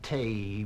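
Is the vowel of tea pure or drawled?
drawled. The vowel is drawn out into a glide. The speaker calls it wrong. "Not tea, mind"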